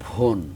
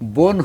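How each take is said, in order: First: The first consonant has a strong puff of breath. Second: The first consonant has no puff of breath. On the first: The speaker calls it wrong. "বোন হয়ে যায় আবার ভোন" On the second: The speaker calls it right. "বোন যখন বলবে"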